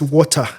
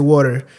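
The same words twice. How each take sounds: First: It is said in a British accent. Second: It is said in an American accent.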